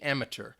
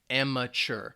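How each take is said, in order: First: The last syllable is said with a t sound. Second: The last syllable is said with a ch sound. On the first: This is heard more in British English. "you might hear the, the T" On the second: This is how most Americans say it. "Most Americans, like me, would say chur. They don't pronounce that T in there"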